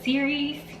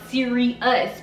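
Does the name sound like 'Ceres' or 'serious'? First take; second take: Ceres; serious. First: It sounds like the name Ceres. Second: It sounds like the word serious. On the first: The speaker calls it right. "but Ceres" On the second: The speaker calls it wrong. "the pronunciation is actually not Sirius"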